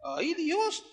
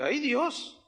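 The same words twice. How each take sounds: First: "Ay, Dios" pitched higher, sliding up in alarm; second "Ay, Dios" climbing into panic; higher, more alarmed plea; rising panic. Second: A touch of fright on "Ay, Dios", rising at the end; first "Ay, Dios" as the water starts pulling, mildly worried; mild worried plea; retold alarm. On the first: Retold or imitated. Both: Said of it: "Yo dije".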